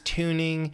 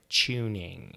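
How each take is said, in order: First: The first sound is a plain t. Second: The first sound is a ch-like t.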